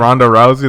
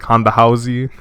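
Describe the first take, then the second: First: Both names begin with an English R sound. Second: Both names begin with an H-like sound.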